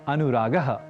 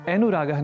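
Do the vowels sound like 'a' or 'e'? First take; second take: a; e. First: The vowels are clear 'a' sounds. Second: The 'a' vowels are pronounced like 'e'. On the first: The speaker calls it right. "अनुरागः यह कहना है" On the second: The speaker calls it wrong. "अनुरागः नहीं कहकर"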